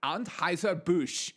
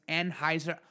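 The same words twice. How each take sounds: First: Put-on Anheuser-Busch slowed in a stray foreign-sounding accent; odd put-on accent. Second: Said in the usual way. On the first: Host stumbling over the brand name, accidental put-on accent. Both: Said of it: "I don't know where that accent came from".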